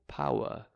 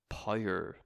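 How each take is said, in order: First: Southern English accent, ending in a soft 'ah'. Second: Northern Irish accent, ending in a hard 'er'.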